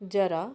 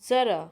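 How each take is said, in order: First: The word begins with a plain 'j' sound. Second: The word begins with a 'z' sound.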